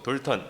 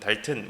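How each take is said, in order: First: The first vowel is a rounded 'o' sound. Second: The first vowel is an open 'a' sound. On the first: This follows the standard Korean textbook spelling. "표준 이제 어 한글 표기 방식으로 돌턴 이렇게 읽겠습니다" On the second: This is closer to how English speakers say it. "영국 사람이나 미국 사람은 달튼 뭐 이렇게 발음할 것"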